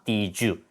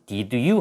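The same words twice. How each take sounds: First: The two words are linked together smoothly. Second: The two words are said separately, not linked. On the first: The speaker calls it right. "연결해서 did you라고 합니다" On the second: The speaker calls it wrong. "did you 하지 마시고"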